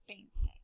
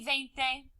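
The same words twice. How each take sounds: First: The first sound is a B sound. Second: The first sound is a V sound. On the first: The speaker calls it right. "it's more correct to say veinte. It's more popular" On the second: The speaker calls it wrong. "You can say veinte"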